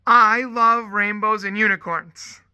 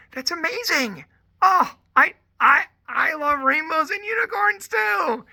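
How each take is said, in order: First: Put-on loud, slow, proud child's announcement; imitating a small girl's big declaration; excited little girl. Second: High-pitched squealing delight, climbing to a shout; hammed-up, much higher enthusiastic squeal; gushing mock excitement. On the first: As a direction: blurt it out like an eager preschooler. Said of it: "this one little girl". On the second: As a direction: gush along with a small child. Acts out gushing reply to child.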